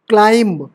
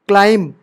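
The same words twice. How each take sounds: Both takes have the same delivery.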